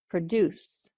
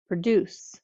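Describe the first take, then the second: First: The stress is on the second syllable. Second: The same.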